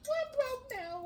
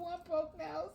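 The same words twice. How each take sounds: First: Mock crying. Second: Said in the usual way. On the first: Real, not acted. Mock crying over nail.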